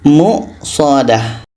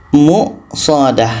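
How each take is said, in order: The two takes are said the same way.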